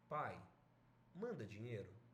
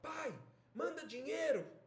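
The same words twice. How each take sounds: First: It sounds gentle and pleading. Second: It sounds angry and demanding.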